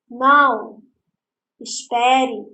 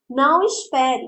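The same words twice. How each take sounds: First: There is a pause after the first word. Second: The two words run together without a pause. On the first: The listener is asked to wait. "Eu estou dizendo para ele esperar" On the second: The listener is told not to wait. "Para ele não me esperar"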